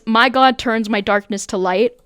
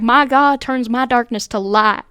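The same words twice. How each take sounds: First: It is read in a neutral accent. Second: It is read in a southern accent.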